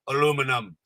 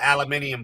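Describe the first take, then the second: First: The word is said the American way. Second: The word is said the British way. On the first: "The dumb American will speak an American idiot language for you" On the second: "instead of aluminium foil"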